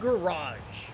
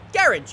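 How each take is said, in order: First: Garage is said with an American accent. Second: Garage is said with a British accent.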